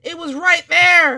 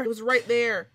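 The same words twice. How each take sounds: First: Loud, stunned burst; right after a jump scare, loud and shocked; shocked outburst. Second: Said in the usual way. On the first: Real, not acted. Jump scare just happened.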